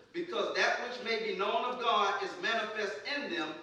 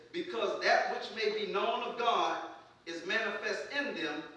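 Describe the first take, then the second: The two takes are said the same way.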